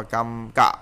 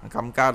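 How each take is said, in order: First: "cam cạ" with "cạ" cut short and stressed; tensed final syllable. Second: Said in the usual way. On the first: Shown as a demonstration. Teacher corrects the reading for learners, "cam cạ" with short tense "cạ". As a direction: punch a short, checked "cạ" in "cam cạ". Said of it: "cam ca đọc là cam cạ". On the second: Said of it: "đọc là cam cạ".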